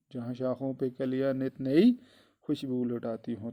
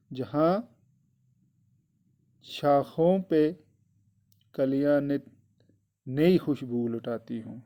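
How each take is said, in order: First: Said in the usual way. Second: Slow, deliberate word by word; slow reading. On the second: Shown as a demonstration. Teacher dictating the poem line to the children, slowly. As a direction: spell the line out slowly for pupils. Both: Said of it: "teacher repeats the poem line".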